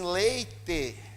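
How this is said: It is said in a rural caipira accent. "quando sobe um caipira pregar e diz assim"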